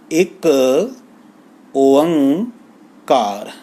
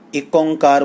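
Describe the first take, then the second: First: The second word is said in three separate parts. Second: The second word is run together as one sound. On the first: The speaker calls it right. "ਇਹ ਤਿੰਨ ਹਿੱਸਿਆਂ ਦੇ ਵਿੱਚ ਆਪ ਜੀ ਨੇ ਬੁਲਾਉਣਾ ਹੈ" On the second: The speaker calls it wrong. "ਇਹ ਸਾਰੇ ਉਚਾਰਨ ਅਸ਼ੁੱਧ ਹਨ"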